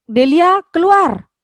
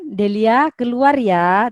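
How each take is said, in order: First: Loud, high, angry shout of keluar; snapping order. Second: Softer request. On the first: Teacher showing the exclamation-mark version, snapped loud and high. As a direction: snap Delia out of the room. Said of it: "berarti membentak itu sudah". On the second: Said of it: "beda dengan". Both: Shown as a demonstration.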